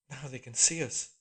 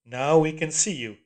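First: Said in the usual way. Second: Loud, higher cold reply; mocking metallic echo; iron voice. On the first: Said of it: "said Julia". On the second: A narrator's reading. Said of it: "said the voice".

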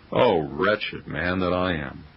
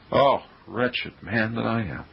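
First: Sighing. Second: A touch of a faint, spent gasp. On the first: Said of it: "he sighs out his soul". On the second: The beaten warrior falls back into his Redeemer's arms, a faint gasp. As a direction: let the words sag as strength fails. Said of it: "with this fainting gasp". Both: A narrator's reading.

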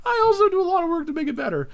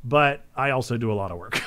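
First: Squeaky high-pitched repeat; high cartoon voice, a bit faster; silly high voice. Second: Said in the usual way. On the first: Repeating own line in silly voice.

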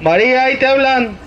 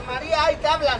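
First: Loud holler across a crowd; calling out. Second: Light call, not at full volume; demonstrated call. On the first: Pretend. Volunteer performs the clown's cue, calling out loudly. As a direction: shout the cue out at full voice. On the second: Shown as a demonstration. Clown rehearses the volunteer's cue, lightly calling out. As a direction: model a holler at modest volume. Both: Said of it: "Me gritas".

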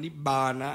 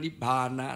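First: "นิบานะ" with voiced b; true Pali reading. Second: "นิพพานะ" with aspirated ph; Thai-style Pali reading. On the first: Lecturer correcting to real Pali, "นิบานะ" with b. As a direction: say "นิบานะ" as nib-baa-na. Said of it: "จริงๆ ก็อ่านว่า". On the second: Lecturer giving the Thai spelling reading, "นิพพานะ" with ph. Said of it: "ภาษาบาลีว่า". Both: Shown as a demonstration.

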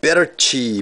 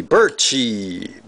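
First: BERCHI with an open "ber" and tapped r; tentative pronunciation. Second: BERCHI with a neutral "bur" vowel, lower; tentative pronunciation. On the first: Card breaker trying a hard surname, tentative pronunciation. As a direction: say BERCHI as "BEHR-chee". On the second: Card breaker retrying a hard surname, tentative pronunciation. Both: Real, not acted. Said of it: "発音が難しいな".

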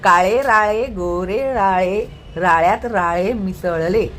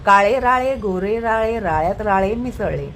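First: Slow, careful tongue-twister read; said slowly. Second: Tongue twister picking up speed. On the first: Teacher showing a child the tongue twister slowly. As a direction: spell each word out slowly for the child. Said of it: "आधी सावकाश म्हण". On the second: Teacher speeding up the tongue twister for the child. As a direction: run it a little quicker each time. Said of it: "वेग वाढवत म्हण". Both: Shown as a demonstration.

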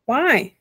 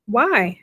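First: Thin, clear, tinkling little voice; a small bell-like question; crystal thin. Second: Cold, needle-sharp question; icy cold. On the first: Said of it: "Crystal thin and hairball clear". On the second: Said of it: "Icy cold it sounded this time, and needle sharp". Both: A narrator's reading.

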